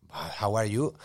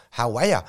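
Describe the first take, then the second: First: Said in the usual way. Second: Louder, run-together Aussie "ya"; casual imitated Australian greeting; Australian accent. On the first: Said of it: "what do you say". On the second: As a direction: slur it into an Australian "how are ya". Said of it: "do your best Australian accent".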